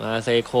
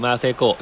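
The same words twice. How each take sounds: First: มาเซโค said with a hard โค ending, African style; มาเซโค as South Africans say it; African pronunciation. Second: มาเซโกะ read like a Japanese name, short กะ ending; มาเซโกะ misread as Japanese; Japanese-style reading. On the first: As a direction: say มาเซโค the African way, long โค at the end. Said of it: "พอปรับสำเนียงเป็นแอฟริกาจะ อ๋อ ชื่อมาเซโคเลย". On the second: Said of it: "ทาเปโล มาเซโกะ". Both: Shown as a demonstration.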